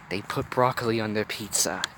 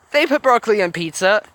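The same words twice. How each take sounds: First: Hushed, revealing a dark secret; soft mock-ominous revelation; low, conspiratorial. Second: Higher, lively repeat of the line; animated, high-pitched remark; incredulous aside. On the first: A narrator's reading. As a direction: confide it softly and gravely. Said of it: "keeping her voice low as if she was revealing the darkest of truths". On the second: Real, not acted. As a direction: say it pitched up, in open disbelief. Reader's amused aside repeating the line.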